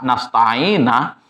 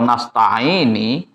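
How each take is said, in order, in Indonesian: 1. Kata nasta'ina berakhir dengan vokal a. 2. Kata nasta'ina berakhir dengan vokal i. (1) "dibaca fathah"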